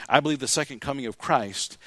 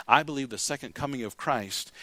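No difference in how they are said.

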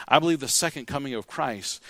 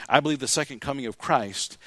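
No difference in how they are said.

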